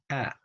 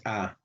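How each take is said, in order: First: A between "ah" and "eh"; target vowel demo. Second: A as a plain open Spanish "ah"; wrong vowel demo. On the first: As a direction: say A as the front vowel of English cat, higher pitched. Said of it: "se pronuncia así, mira". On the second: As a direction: say A as an open "ah", the sound to avoid. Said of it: "Mire, no es A". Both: Shown as a demonstration.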